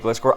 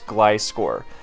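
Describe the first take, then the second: First: The first syllable does not sound like 'glide'. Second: The first syllable sounds like 'glide'. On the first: The speaker calls it wrong. "it's wrong to say Gliscor" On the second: The speaker calls it right. "it's a gliding scorpion. It's Gliscor"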